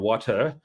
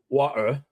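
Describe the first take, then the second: First: The t is clearly pronounced; final r is dropped. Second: The t is replaced by a glottal stop. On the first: "English say water or water" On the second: "The Cockney is water"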